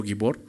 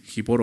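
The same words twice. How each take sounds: First: "gibor" opening on a hard g; g as in go at the start of "gibor"; hard g pronunciation. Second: "gibor" opening on Spanish j; first sound of "gibor" like an h; breathy j pronunciation. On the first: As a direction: say "gibor" with g, never h. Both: Shown as a demonstration. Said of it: "algunos lo pronuncian así".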